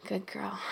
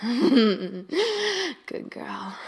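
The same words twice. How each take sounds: First: Said in the usual way. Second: Proud, louder and drawn out; loud praise. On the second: Acted. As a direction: declare it with satisfaction. Loud praise after laugh.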